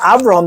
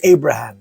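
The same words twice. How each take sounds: First: The name is pronounced the Hebrew way. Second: The name is pronounced the English way. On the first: "instead of saying Abraham" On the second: "they say Abraham"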